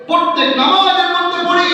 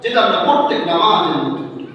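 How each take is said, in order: First: Higher, chanted repeat with a stretched ending; rousing preacher's call. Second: Said in the usual way. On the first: Shown as a demonstration. Preacher reminds worshippers of every prayer, rousing chant. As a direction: ring it out to the crowd.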